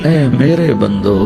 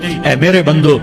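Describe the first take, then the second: First: It is said in a warm, tender, loving tone. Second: It is said in a plain, unaffectionate tone. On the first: The speaker calls it right. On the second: The speaker calls it wrong.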